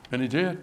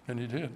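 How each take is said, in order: First: Said in the usual way. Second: A much softer repeat, nearly gone; hushed echo. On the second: Acted. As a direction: repeat it far softer, almost to nothing. Repeated line, dropped to near silence.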